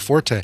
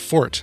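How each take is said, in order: First: The word is said with two syllables. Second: The word is said with one syllable. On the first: This is a later, secondary pronunciation. "like when it's the last name of Will Forte" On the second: This is the original pronunciation. "the original pronunciation is just Fort, F-O-R-T"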